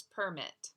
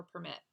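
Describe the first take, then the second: First: Permit stressed on the first syllable, PER-mit; noun stress PERmit. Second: Permit stressed on the second syllable, per-MIT; verb stress perMIT. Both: Shown as a demonstration. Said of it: "or permit".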